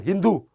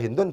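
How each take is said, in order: First: The word ends on a bare vowel. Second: The word ends with an n sound. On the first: The speaker calls it wrong. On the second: The speaker calls it right. "Kita kalau baca"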